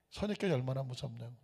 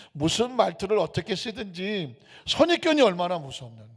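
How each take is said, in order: First: Much softer, quick echo; hushed echo. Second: Said in the usual way. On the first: Acted. Pastor driving home the point to the congregation, hushed echo. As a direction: repeat it low and quietly. Echoed softly.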